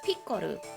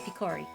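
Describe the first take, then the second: First: The name is pronounced the Japanese way. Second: The name is pronounced the English way. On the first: "in Japanese it's Pikoru" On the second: "I'm gonna say Picori"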